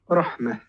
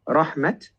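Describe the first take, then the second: First: The word ends with a breathy h sound. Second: The word ends with a t sound. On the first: The speaker calls it right. "becomes rahmah with a bit of air with the ha" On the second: The speaker calls it wrong. "instead of becoming rahmat"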